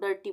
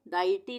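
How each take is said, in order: First: The first syllable has an er vowel. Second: The first syllable has an ai vowel. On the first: The speaker calls it right. "डर्टी बोलेंगे, अ का उच्चारण आएगा यहाँ पर" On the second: The speaker calls it wrong. "डाइटी नहीं बोलेंगे इसको"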